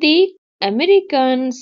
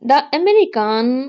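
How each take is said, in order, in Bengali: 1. 'the' শব্দটি লম্বা 'ee' স্বরধ্বনি দিয়ে বলা হয়। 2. 'the' শব্দটি ছোট 'uh' স্বরধ্বনি দিয়ে বলা হয়। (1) "যখন ভাওয়েলের পূর্বে থাকবে দি তখন হবে আহ, দি হবে" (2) "সরি দি হবে এখানে"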